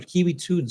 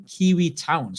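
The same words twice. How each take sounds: First: TOON said with a long "oo", as in moon; corrected name. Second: TOWN said with an "ow" vowel, as in brown; misread name. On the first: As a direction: correct it to "Toon", rhyming with spoon. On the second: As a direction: read "Town" like the ordinary English word. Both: Real, not acted. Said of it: "Sorry, Kiwi Toon".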